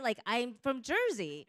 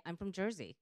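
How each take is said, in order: First: Louder, higher, proud declaration; emphatic Jersey claim. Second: Said in the usual way. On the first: Real, not acted. Panelist repeating her origin to the audience, loud and proud. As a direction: plant your flag on Jersey. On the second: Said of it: "And I'd say".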